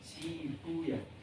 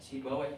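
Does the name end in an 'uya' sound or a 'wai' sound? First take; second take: uya; wai. First: The name ends with an 'uya' sound. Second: The name ends with a 'wai' sound. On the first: This is the hadith scholars' reading. "oleh Muhaddisin nggak dibaca wah, tapi uya" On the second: This is the grammarians' reading. "oleh Nuhat para Rinawi dibaca wah"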